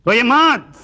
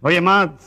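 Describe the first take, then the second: First: High, raised-voice plea; insistent consoling. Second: Said in the usual way. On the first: Acted. Man urging a bereaved clerk not to cry, insistent. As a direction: press it higher and louder, drawing it out. Consoling again, much higher.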